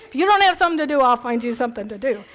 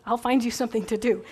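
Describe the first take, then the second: First: Bossy organizer. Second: Said in the usual way. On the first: Acted. Speaker playing the busybody who fills your schedule, bossy. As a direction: hand out chores like the bossy organizer. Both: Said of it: "People like me".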